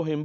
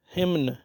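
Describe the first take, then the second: First: "हिम" ending on M; silent N. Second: "हिमन" with N after the M; spelling pronunciation, N sounded. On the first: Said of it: "इसको हिम बोलेंगे". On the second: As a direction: say "हिमन", pronouncing the final N. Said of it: "बनता है लेकिन". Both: Shown as a demonstration.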